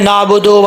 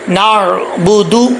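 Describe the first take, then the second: First: The word ends with an 'oh' vowel. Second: The word ends with an 'oo' vowel. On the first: The speaker calls it wrong. "लोग कैसे पढ़ते हैं, नाबुदो वैया, ऐसे नहीं पढ़ना" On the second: The speaker calls it right. "दाल पेश दू होता है"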